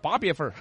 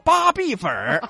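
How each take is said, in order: First: It is said with Yibin dialect pronunciation. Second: It is said with Standard Mandarin pronunciation.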